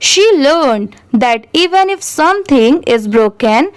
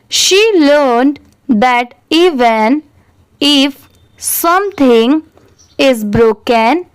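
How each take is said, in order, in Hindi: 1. इसे तेज़ रफ़्तार से पढ़ा गया है। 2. इसे धीमी रफ़्तार से पढ़ा गया है।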